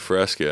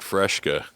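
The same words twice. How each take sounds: First: The middle is said with a plain 's' sound. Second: The middle is said with an 'sh' sound. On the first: The speaker calls it right. "there's no fucking H in that shit" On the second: The speaker calls it wrong. "I'd been saying that my whole life"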